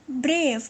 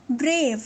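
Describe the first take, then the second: No difference in how they are said.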